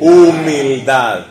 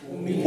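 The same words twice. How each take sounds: First: Humildad said very slowly and louder, falling at the end; slow emphasis. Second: Said in the usual way. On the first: Shown as a demonstration. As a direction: lean on Humildad, drawn out. (Humildad, lento, fuerte y con caída final) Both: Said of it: "congregation answer, then the preacher repeats it".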